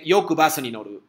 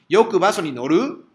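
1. El tono se mantiene igual o baja al final. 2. El tono sube al final. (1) "entonces afirmación" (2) "sube igual que español, entonces ya pregunta"

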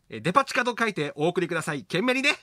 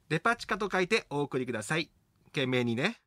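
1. このせりふは間を空けずに速く読みます。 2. このせりふはゆっくり、間を空けて読みます。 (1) "そんなに早く言わなくていいの。" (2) "ちょっと間を空けてください。"

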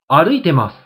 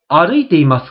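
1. 「ます」の前の「い」の音は落ちます。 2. 「ます」の前の「い」の音は残ります。

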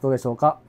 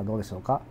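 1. 背景ノイズはノイキャンで抑えられている。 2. ノイキャンなしだと背景ノイズが聞こえる。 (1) "ノイキャン入れております。" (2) "今ノイキャン切りました。"

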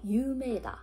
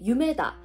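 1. 가운데 모음을 분명히 길게 발음해요. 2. 가운데 모음은 짧아요. 길게 늘리지 않아요. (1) "이건 장음을 꼭 강조하셔야 돼요" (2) "장음 없이 유메다 이렇게 되면 꿈이다 라는 뜻이 되거든요"

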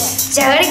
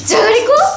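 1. 怒った口調で言われています。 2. 驚いた口調で言われています。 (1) "怒ってて" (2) "驚いて"

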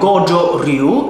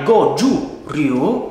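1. La prima parola finisce con un suono o. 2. La prima parola finisce con un suono u. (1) "ce ne sono altri come ad esempio" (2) "in realtà è"

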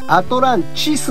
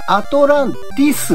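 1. 3番目の音節は'chi'です。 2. 3番目の音節は'ti'です。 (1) "アトランチスの謎なんですね" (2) "結構間違いやすいんですが、こちらアトランティスの謎じゃなくて"

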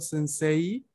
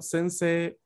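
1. La I final se pronuncia como un sonido separado. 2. La E final se mantiene larga, sin I. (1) "yo este tipo de palabras no la leo sensei" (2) "sino sensei"

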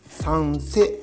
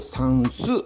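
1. 2番目の音節は'se'と発音します。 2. 2番目の音節は'su'と発音します。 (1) "正解はサンセベリアです" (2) "サンスベリアって言ってる人がいます"

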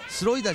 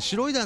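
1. その名前は普通の「s」の音で始まります。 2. その名前は「sh」の音で始まります。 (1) "スロイダーじゃなくてね" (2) "シュロイダーなんだって"

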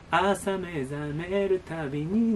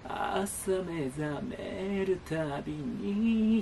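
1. このフレーズは、普通のはっきりした声で始まります。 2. このフレーズは、きしみ声でパリパリした声で始まります。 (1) "歌詞が、朝目覚めるたびになんですけど" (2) "このエッジボイスっていう言われ方をするんですけど、それが使われてますよね"

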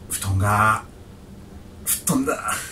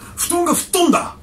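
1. 悲しそうで、沈んだトーンで言っています。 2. 怒ったトーンで言っています。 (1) "はい。" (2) "どう？"

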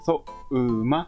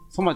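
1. 最初の母音は長い。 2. 最初の母音は短い。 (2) "ソマじゃない"

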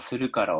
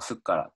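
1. sの後のuは残る。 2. 母音が落ちて、子音が重なる。

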